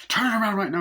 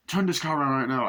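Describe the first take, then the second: First: High, loud retold command; insistent shouted order. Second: Slightly raised, firm retold command; firm order. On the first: Doctor ordering the refusing driver to turn back, mock insistent shout. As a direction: shout the order, pitch jumping up. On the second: Doctor telling the driver to turn the car, firm retold order. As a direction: give a firm first order, mildly acted.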